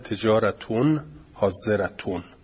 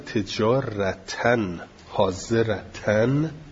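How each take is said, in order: First: Both words end with an -un sound. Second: Both words end with an -an sound. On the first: The words are in the nominative case. "قرأ الباقون به رفع" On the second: The words are in the accusative case. "و قرأ عاصم وحده"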